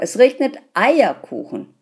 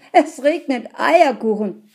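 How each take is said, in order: First: Regnet punched high and loud; excited stress. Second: Eierkuchen punched high and loud; excited stress. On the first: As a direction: land hard on regnet in delight. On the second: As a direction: land hard on Eierkuchen in delight. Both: A narrator's reading. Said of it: "schrie er begeistert".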